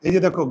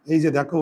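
No difference in how they are said.

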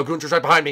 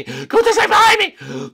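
First: Said in the usual way. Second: Very high, loud shriek; hammed-up terror; panicked scream. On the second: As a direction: scream that the chaser is right behind you. Panicked repeat while chased.

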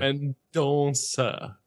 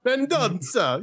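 First: Mendoza said slowly with a nasal "on", as if Portuguese; Portuguese pronunciation. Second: Mendoza said higher, nasal "en" in the first syllable; mock Portuguese name. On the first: Shown as a demonstration. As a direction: Mendoza drawn out, correcting the name.

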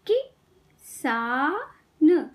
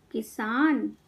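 First: किसान very slowly, with gaps between sounds; syllable by syllable. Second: Said in the usual way. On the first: Shown as a demonstration. Teacher teaching kids to read, syllables apart. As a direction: break किसान into कि - सा - न. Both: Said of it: "शब्द पढ़ना सिखाऊंगी".

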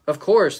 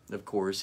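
First: "Of course" barked out higher and louder, full of pride; proud soldier's reply. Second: Said in the usual way. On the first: Acted. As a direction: snap "Of course" back like a confident warrior. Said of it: "the soldier said".

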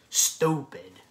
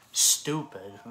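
First: Angry shout. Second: Angry repeat. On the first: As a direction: bark it out in contempt. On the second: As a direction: hammer it home. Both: Real, not acted. Ranting about mukbangs.

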